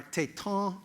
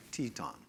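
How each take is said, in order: First: Téton said tay-TON, stressed on the end; second-syllable stress. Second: Teton said TEE-ton, stressed up front; first-syllable stress. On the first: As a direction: put the weight on the last syllable of téton. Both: Shown as a demonstration. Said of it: "put the stress on the first syllable".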